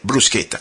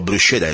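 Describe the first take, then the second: First: It is said the Italian way. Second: It is said the American way.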